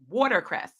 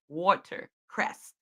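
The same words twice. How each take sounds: First: The word is said quickly and casually. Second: The word is said clearly and carefully. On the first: The speaker calls it wrong. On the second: The speaker calls it right.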